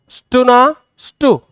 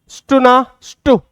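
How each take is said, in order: Both takes have the same delivery.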